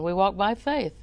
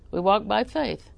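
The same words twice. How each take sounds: First: "We walk by faith." with the weight landing on "faith", falling off the end; stress on faith. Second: "We walk by faith." with "walk" punched and the rest falling away; stress on walk. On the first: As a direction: lean into "faith", then let it drop. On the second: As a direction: hit "walk" hard, keep "faith" light. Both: Shown as a demonstration.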